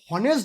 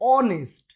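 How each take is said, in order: First: The word begins with an audible h sound. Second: The word begins directly with a vowel sound. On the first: The speaker calls it wrong. "আমরা কিন্তু হনেস্ট বলি না" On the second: The speaker calls it right. "আমরা বলি অনেস্ট"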